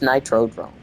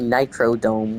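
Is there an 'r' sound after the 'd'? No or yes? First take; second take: yes; no. First: An r sound follows the d. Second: No r sound follows the d. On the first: The speaker calls it right. "I think it's Nitrodrome" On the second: The speaker calls it wrong. "I was saying Nitrodome"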